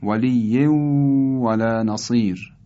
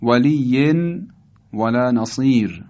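First: «ولی ولا نصیر» as waliyyew-walā nasir, long held w; idgham. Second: «ولی ولا نصیر» as waliyyen, pause, walā nasir; unmerged reading. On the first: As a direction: melt the n ending of «ولی» into the و. («ولی ولا نصیر» با ادغام تنوین در واو) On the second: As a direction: sound an n ending on «ولی». (خواندن «ولی ولا نصیر» با تنوین آشکار) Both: Shown as a demonstration.

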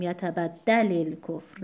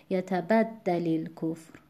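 First: یتبدل الکفر wrongly stressed on "da"; yatabad-DA-lil-kufr for یتبدل الکفر; misplaced stress. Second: یتبدل الکفر with "bad" stressed and "lil" light; yata-BAD-dalil-kufr for یتبدل الکفر. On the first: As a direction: shift the weight onto the "da" in یتبدل الکفر. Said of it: "نباید بخونیم". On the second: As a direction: keep the weight on the ب when linking یتبدل الکفر. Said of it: "در وزنش هیچ تأثیری نمیذاره". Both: Shown as a demonstration.

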